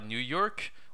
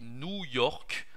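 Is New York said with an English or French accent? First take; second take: English; French. First: It is said with an English pronunciation. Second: It is said with a French pronunciation. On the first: The speaker calls it wrong. "On dit pas New York" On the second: The speaker calls it right. "on dit New York ... à la française"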